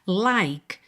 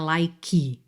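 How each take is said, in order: First: The word ends at the K, with no vowel. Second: A vowel sound is added after the K. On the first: The speaker calls it right. "separa o som no K" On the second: The speaker calls it wrong. "não é like"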